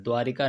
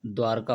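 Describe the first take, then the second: First: द्वारिका with an extra short i, द्वा-रि-का; द्वारिका read out with a clear रि; wrong spelling said. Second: द्वारका in three syllables, no i after र; द्वारका as the right spelling, no extra vowel; correct form said. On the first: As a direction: say द्वारिका as four syllables, the wrong form. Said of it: "नहीं होता है". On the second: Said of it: "क्या होता है? द्वारका होता है". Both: Shown as a demonstration.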